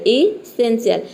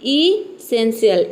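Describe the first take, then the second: First: Said in the usual way. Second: Slow model take. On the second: Shown as a demonstration. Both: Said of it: "आप भी हमारे साथ बोलिए".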